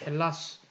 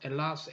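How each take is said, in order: First: The word begins with an H sound. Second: The word begins without an H sound.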